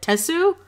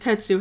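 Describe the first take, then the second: First: The name is said with a French pronunciation. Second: The name is said with a non-French pronunciation. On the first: The speaker calls it right. "since she's French, it's like Tetsu" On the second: The speaker calls it wrong. "I say Tetsu's is Tetsu"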